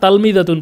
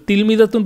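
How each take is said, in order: First: The first vowel is an 'a' sound. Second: The first vowel is an 'i' sound. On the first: The speaker calls it wrong. "তালমিযাতুন বলে কোনো শব্দ আরবিতে নাইও" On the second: The speaker calls it right. "আমরা তিলমিযাতুন পড়বো"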